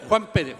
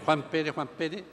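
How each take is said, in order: First: Said in the usual way. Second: Low, soft repeated muttering; under-the-breath searching; muttered list-checking. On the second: Acted. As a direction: murmur the name to yourself while searching a list. San Pedro searches his list.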